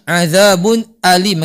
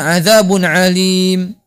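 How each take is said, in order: First: Alim starts with a glottal stop. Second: Alim starts without a glottal stop. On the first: The speaker calls it right. "Yang benar bacanya azabun alim pakai hamzah" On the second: The speaker calls it wrong. "Jangan azabun alim"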